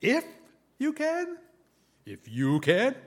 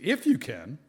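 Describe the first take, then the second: First: "If you can?" with a high rising question tune on "can"; incredulous question. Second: "If you can." said as a flat, level statement, a little louder; a plain falling "If you can.". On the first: Jesus throwing the father's doubt back, incredulous rise. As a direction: echo "If you can?" back in disbelief, pitch jumping up. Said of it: "Not sure what the intonation is". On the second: Jesus answering the father, flat statement. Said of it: "Maybe he said it that way". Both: Shown as a demonstration.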